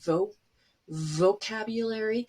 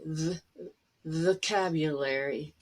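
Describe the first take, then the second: First: The first syllable has a full 'oh' vowel. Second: The first syllable has a reduced schwa vowel. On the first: "It's really vo vocabulary" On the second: "people will understand you really well"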